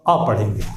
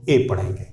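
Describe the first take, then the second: First: "अ" said uh, not ay; weak word-form "a". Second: Letter A read as "ए", its alphabet name; "ए" said ay, not uh. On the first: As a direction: say "अ" as a short neutral uh. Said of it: "word order में हम पढ़ेंगे ए को". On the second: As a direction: say "ए" as a full ay. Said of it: "alphabetical order में पढ़ेंगे". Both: Shown as a demonstration.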